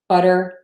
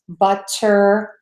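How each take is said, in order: First: The middle sound is a quick D-like flap. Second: The middle sound is a crisp, released T. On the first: The speaker calls it right. "we would tend to say a D, which is the flat T" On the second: The speaker calls it wrong. "we do not say"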